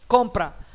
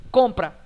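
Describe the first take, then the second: Both takes have the same delivery.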